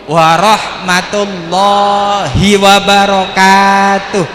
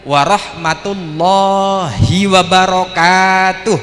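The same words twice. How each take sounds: Both takes have the same delivery.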